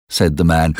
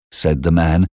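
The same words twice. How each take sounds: The two takes are said the same way.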